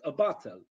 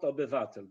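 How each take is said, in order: First: "obywatel" shortened to "obatel"; "obywatel" with a syllable missing; swallowed syllable. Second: Said in the usual way. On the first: Shown as a demonstration. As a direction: drop the "yw" from "obywatel". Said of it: "but obywatel". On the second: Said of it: "Not obywatel".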